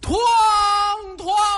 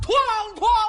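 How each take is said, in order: First: It is said too slowly. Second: It is said far too fast.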